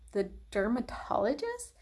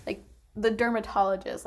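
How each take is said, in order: First: "dermatologist" asked with a rising, incredulous tune; disbelieving echo, pitch climbing on "dermatologist"; surprised question. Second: Said in the usual way. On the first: Retold or imitated. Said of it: "I'm like".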